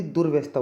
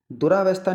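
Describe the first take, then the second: First: दुर्व्यवस्था closed after r, "dur-vesta"; correct pronunciation. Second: दुरावस्था with an extra long a, "du-raa-vastha"; wrong pronunciation. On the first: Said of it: "दुर्व्यवस्था होती है". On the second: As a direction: show the mistaken "raa" in दुरावस्था. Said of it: "दुरावस्था नहीं होती". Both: Shown as a demonstration.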